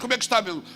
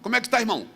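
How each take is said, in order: First: It is said in his normal casual voice. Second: It is said in a put-on churchy voice.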